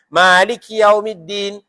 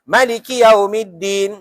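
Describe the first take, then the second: First: The first vowel is held long. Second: The first vowel is kept short. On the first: "ma tu dua harakat" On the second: "Tapi imam ni"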